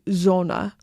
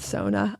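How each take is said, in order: First: The word begins with a buzzing z sound. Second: The word begins with a hissing s sound. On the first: The speaker calls it right. "I'm supposed to say Zona" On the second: The speaker calls it wrong. "I said that wrong. I said Sona"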